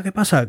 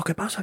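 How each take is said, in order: First: Alarmed question. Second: High, soft, alarmed and rising; startled question. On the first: Startled soldiers after the shot. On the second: Soldiers hear the shot, a high hushed startled question. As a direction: ask it high and hushed, jumping at the noise. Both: Retold or imitated.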